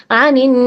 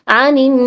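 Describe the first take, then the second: Both takes have the same delivery.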